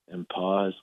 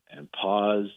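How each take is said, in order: Both takes have the same delivery.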